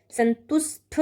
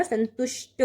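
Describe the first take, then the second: First: संतुष्ट ending in a puffed ṭh; wrong aspirated ending. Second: संतुष्ट ending in a dry ṭ; correct unaspirated ending. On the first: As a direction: say संतुष्ट as santusṭha, breath on the ṭ. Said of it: "ठा नहीं होगा". (संतुष्ट के अंत में ठ की ध्वनि) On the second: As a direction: say संतुष्ट as santushṭa, no breath puff. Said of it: "होता है". (संतुष्ट के अंत में ट की ध्वनि) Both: Shown as a demonstration.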